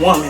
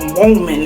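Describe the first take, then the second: First: The word is said in an ordinary way. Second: The word is said in a posh, fancy way.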